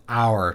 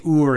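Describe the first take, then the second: First: Said in the usual way. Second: "oor" said with a long oo, louder; dialect pronunciation. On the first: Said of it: "instead of". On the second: Shown as a demonstration. Showing a hint of accent, "oor" with a long oo. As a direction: stress "oor" as the Scottish or Irish form. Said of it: "you might just say".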